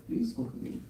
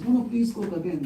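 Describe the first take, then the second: First: Soft, hushed, coaxing "Please cook again." said sweetly; sweet-tongued plea. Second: Said in the usual way. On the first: Retold or imitated. Vishwambar sweetly coaxing the sadhu, soft and charming. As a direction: coax him gently with "Please cook again.". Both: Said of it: "he has a sweet tongue".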